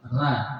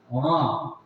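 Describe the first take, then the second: First: The R is made with the tongue tip mid-mouth. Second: The R is made with the tongue pulled back. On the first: "Kalau roh Indonesia itu berada di tengah, ujung lidah bertemu dengan tengah lidah" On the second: "Kalau Inggris dia ke belakang"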